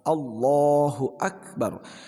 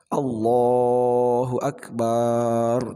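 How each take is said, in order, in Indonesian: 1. Vokal setelah b dibaca pendek. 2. Vokal setelah b dibaca panjang. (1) "kalau dipendekkan itu kan Allah yang maha besar" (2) "tidak boleh memanjangkan ba-nya lafaz akbar"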